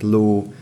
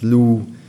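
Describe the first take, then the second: First: The vowel is pronounced as a long ó. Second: The vowel is pronounced as a long ú. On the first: This is the standard form. "az ó, ő hangok helyett" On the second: This is the regional dialect form. "nagyon gyakori az ú, ű ejtése"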